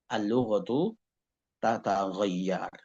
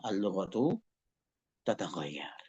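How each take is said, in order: First: Said in the usual way. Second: Says "al-lughatu" softly, then whispers "tataghayyar"; fading to a whisper. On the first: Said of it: "Ya, al-lughatu tataghayyar". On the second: Shown as a demonstration. Teacher repeats the Arabic phrase to the class, fading into a whisper. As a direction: let the Arabic "al-lughatu tataghayyar" die away into a breath.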